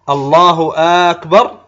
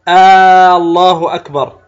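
First: The opening vowel of akbar is lengthened. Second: The opening vowel of Allah is lengthened. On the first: "هكذا يمدها كأنه يقول الله أكبر، فكأنه يستفهم" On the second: "بعضهم يمد همزة لفظ الجلالة"

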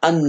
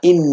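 First: The word begins with an a vowel. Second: The word begins with an i vowel. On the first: The speaker calls it wrong. "ولا تقول ما أن مفاتيحه" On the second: The speaker calls it right. "هذا ما إن مفاتحه"

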